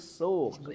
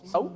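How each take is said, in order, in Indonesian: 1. Vokalnya 'u' panjang biasa. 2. Vokalnya diftong, seperti 'au'. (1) "Bukan sauk tapi suk" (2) "ada yang bacanya sauk"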